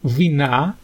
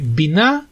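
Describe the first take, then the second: First: The word begins with a v sound. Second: The word begins with a b sound. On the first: This follows the older grammar used in the prayer. "молитва Шмонесра составлена и огласована согласно правилам грамматики древнего иврита" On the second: This is how it is said in modern usage. "Сейчас бы мы сказали «бина»"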